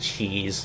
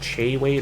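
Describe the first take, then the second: First: The first word sounds like 'cheese'. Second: The first word sounds like 'shay'. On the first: "he pronounces it cheese" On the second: "it's technically Che Che Wade"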